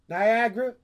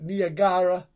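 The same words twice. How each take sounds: First: It is said in a plain American accent. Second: It is said in an Italian accent.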